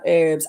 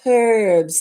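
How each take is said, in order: First: The word begins with no h sound. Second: The word begins with an h sound. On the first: The speaker calls it wrong. "we've dropped a consonant" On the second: The speaker calls it right. "They are herbs"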